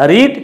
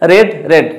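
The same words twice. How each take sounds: First: "রিড" with a long ee, like reed; present-tense pronunciation. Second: "রেড" with a short e, like red; past-form pronunciation. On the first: Teacher showing students the present form, "রিড" with long ee. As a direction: say "রিড" with an ee vowel. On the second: Teacher showing past and participle forms, "রেড" with short e. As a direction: say "রেড" with an e vowel, twice. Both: Shown as a demonstration. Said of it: "উচ্চারণটা কি? আলাদা".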